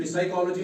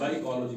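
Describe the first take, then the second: First: "साइकोलॉजी" with a P sounded in front; wrong pronunciation. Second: "साइकोलॉजी" starting straight on the s; silent P. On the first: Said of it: "नहीं पढ़ा जाएगा". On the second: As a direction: say "साइकोलॉजी" as sai-kology, no P. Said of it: "पी की आवाज निकाली जाएगी या नहीं". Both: Shown as a demonstration.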